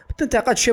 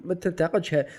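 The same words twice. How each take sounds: First: High, louder snap of don't criticize; sharp inner command. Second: Said in the usual way. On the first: Retold or imitated. Voicing his own inner censor with a sharp high command. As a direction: bark the forbidding inner voice.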